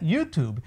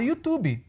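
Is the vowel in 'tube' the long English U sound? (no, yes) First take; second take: yes; no. First: The vowel in 'tube' is a long U. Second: The vowel in 'tube' is not a long U. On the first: The speaker calls it right. "mas o correto é YouTube" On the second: The speaker calls it wrong. "muita gente fala YouTube"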